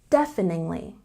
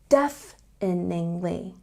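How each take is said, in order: First: The word is said at normal speed. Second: The word is said slowly.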